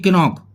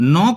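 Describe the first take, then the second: First: The k at the start is sounded. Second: The k at the start is silent. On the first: The speaker calls it wrong. "ना कि किनॉक" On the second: The speaker calls it right. "नॉक बोलेंगे"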